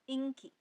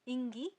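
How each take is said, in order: First: The middle consonant is a hard k. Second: The middle consonant is a soft g. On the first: This is how the word is actually read. "लेकिन इसको पढ़ा जाता है इंकी" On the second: This is how the word is written. "इसको लिखा जाता है इंगी"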